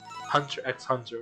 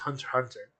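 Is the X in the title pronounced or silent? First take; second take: pronounced; silent. First: The middle X is spoken aloud. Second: The middle X is left out entirely. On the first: The speaker calls it right. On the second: The speaker calls it wrong.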